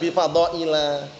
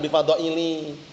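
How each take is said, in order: First: The last word ends with an 'a' vowel. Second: The last word ends with an 'i' vowel. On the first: The speaker calls it right. "makanya bi fadhaila" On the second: The speaker calls it wrong. "Bukan bi fadhaili"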